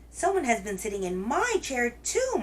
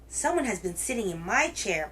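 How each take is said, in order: First: It is said in a medium-sized wailing voice. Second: It is said in a great big roaring voice.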